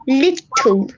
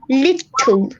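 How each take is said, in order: First: The T sounds are crisp and clearly released. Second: The same.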